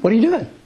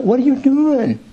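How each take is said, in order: First: The tone is calm and trusting. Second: The tone is whiny and accusing. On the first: The speaker trusts that God has a purpose. The speaker calls it right. "it comes from a whole different place of faith" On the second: The speaker blames God like a complaining child. The speaker calls it wrong. "That's the voice of a child"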